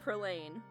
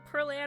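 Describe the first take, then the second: First: The last syllable sounds like 'lane'. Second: The last syllable sounds like 'Ann'. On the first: The speaker calls it wrong. "I don't know why I've been pronouncing it Perlane" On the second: The speaker calls it right. "it makes sense that it'll be Perlan, because Pearl Ann"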